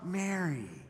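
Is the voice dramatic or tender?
tender. A soft, loving voice says the name. The speaker calls it right. "I think it was this voice of love"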